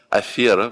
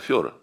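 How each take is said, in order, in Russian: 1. Ударный гласный — обычный звук 'e'. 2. Ударный гласный — звук 'yo'. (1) "дикторы говорят «афера»" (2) "вместо «афера»"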